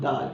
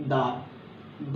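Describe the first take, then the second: First: دال said briefly and lightly; quick light دال; short soft dal. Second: دال stretched very slowly and gently, tongue tip on the teeth; slow soft دال; long soft dal. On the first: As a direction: clip دال short, no hardness. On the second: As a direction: draw دال out slowly and softly. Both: Shown as a demonstration. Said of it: "جا کے touch ہوتی ہے".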